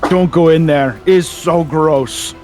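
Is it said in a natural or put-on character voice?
natural. It is said in the speaker's plain voice.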